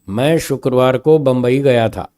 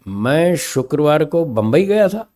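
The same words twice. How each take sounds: First: It is said plainly with no word stressed. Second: The word Bombay carries the emphasis. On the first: It is a simple statement of the trip. "Simple स्वर में एक simple statement है" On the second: The person went somewhere other than that city. "Bombay शब्द का स्वर बदल दिया मैंने"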